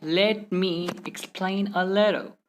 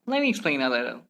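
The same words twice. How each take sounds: First: Slow, "Let" and "me" fully separated; word-by-word. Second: "Let me" run together as "lemme"; merged letters. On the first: Teacher showing the slow way to avoid, word-by-word. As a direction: pause between the words. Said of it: "Instead of saying". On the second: Teacher giving learners the faster version, merged words. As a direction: rattle it off as one joined phrase. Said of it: "simply say". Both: Shown as a demonstration.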